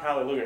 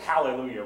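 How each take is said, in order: First: It is said in a plain, non-Southern accent. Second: It is said in a Southern US accent. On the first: The speaker calls it wrong. "it's not hallelujah" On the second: The speaker calls it right. "it's hallelujah when you're from the South"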